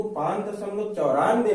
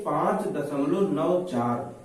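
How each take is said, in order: First: "पांच दशमलव चौरानवे" read with चौरानवे as one number; "पांच दशमलव चौरानवे", ninety-four after the point; wrong reading as whole number. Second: "पांच दशमलव नौ चार" slow, each digit नौ and चार separate. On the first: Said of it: "इसको पांच दशमलव चौरानवे नहीं पढ़ेंगे". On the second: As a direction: read "नौ चार" as single digits, slowly. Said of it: "इसको पढ़ेंगे". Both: Shown as a demonstration.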